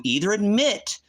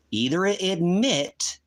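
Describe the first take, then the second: First: Said in the usual way. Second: "either admit" stretched out slowly, leaning on "admit"; slow emphatic repeat. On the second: Real, not acted. Streamer pressing the man in chat, slow and emphatic. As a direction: drag out "admit" to force the point. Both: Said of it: "repeats "either admit" slower each time".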